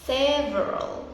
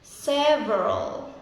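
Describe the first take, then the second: Both takes have the same delivery.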